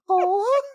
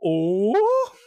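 First: It is said in a put-on character voice. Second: It is said in the speaker's plain voice.

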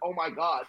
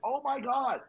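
First: It sounds casual, not really shocked. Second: It sounds genuinely shocked and aghast.

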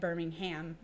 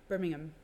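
First: It is said the American way, as spelled. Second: It is said the British way, not as spelled. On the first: This names the city in Alabama. "It's not like Birmingham, Alabama" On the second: This names the city in England. "I have to say it right"

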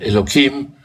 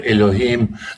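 First: The middle consonant is a k sound. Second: The middle consonant is an h sound. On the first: This form avoids pronouncing the divine name. "а произнося «Кей» вместо «Элохим»" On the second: This is the form that pronounces the divine name. "не произнося «Гей»"

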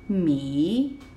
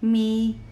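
First: The pitch dips down and then rises. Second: The pitch stays high and level. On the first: "goes down, and then goes up" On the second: "the first tone is a high tone, and it's leveled, it's straight"

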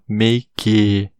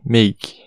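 First: The word ends with an added final vowel sound. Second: The word ends without a final vowel sound. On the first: The speaker calls it wrong. "destacar esse E como a gente faria em português" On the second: The speaker calls it right. "a gente não pronuncia ele"

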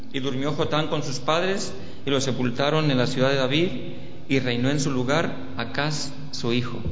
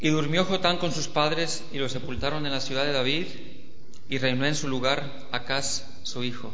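The two takes are said the same way.

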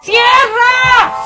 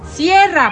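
First: It is shouted aggressively. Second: It is said calmly, without aggression.

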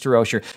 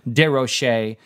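First: The name is pronounced in a plain English way. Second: The name is pronounced in a French way. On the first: "but we'll stick with Denise DeRocher" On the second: "I like to pronounce it in the French way"

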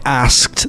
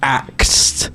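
First: The s sound comes before the k sound. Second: The k sound comes before the s sound. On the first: The speaker calls it right. "When people don't say asked" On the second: The speaker calls it wrong. "they say he axed"

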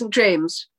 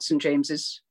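First: The name ends with the single syllable James. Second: The name ends with an extra syllable after James. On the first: The speaker calls it right. "it's St. James" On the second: The speaker calls it wrong. "not St. James's"

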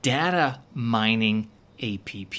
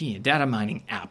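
First: App is spelled out letter by letter. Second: App is said as one short word. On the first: This is how it is said in China. The speaker calls it wrong. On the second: This is how the original speaker said it. The speaker calls it right.

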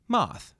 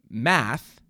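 First: The word is said with a British vowel. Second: The word is said with an American vowel. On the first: "would be like moth" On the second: "and then math would be like"

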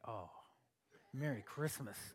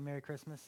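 First: It is said with malice and anger. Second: It is said in a plain, friendly way.

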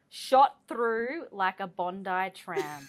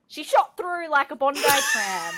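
First: It is said plainly, without much feeling. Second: It is said with lively, committed feeling.

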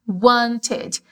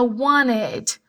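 First: The T sound is clearly pronounced. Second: The T sound is nearly dropped.

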